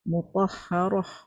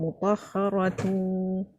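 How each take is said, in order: First: The word stops and ends with an h sound. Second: The word runs on and ends with tu. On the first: The reciter pauses at this word. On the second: The reciter continues into the next word. "kalau saya sambung mutahharatu"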